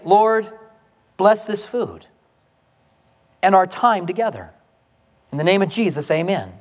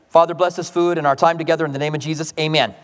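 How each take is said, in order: First: It is said fervently, with deep feeling. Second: It is said flatly, without fervour.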